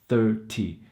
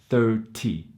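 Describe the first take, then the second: First: The middle consonant is a clear t sound. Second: The middle consonant is a clear t sound.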